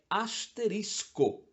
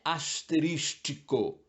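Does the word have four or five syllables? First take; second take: four; five. First: The word has no extra syllable before the ending. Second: The word has an extra syllable before the ending. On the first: The speaker calls it right. "é bem mais simples, é asterisco" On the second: The speaker calls it wrong. "Não é asterístico"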